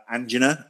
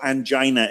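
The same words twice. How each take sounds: First: "angina" as AN-jin-uh; "angina" the American way, AN-jin-uh; American pronunciation. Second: "angina" as an-JY-nuh; "angina" the British way, an-JY-nuh; British pronunciation. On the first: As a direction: say "angina" with stress up front and a short i. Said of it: "as it's called in this country". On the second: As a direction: say "angina" with a stressed long i, rhyming with China. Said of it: "if you're back home". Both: Shown as a demonstration.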